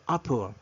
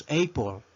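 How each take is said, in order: First: Apple said "AH-pol"; apple with a short open "a", never "ay"; corrected pronunciation. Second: Apple wrongly said "AY-pol"; apple with a long "ei" first vowel; mispronunciation demo. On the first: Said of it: "sino apple". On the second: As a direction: start apple with the letter-name "ay". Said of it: "No pronunciamos apple". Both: Shown as a demonstration.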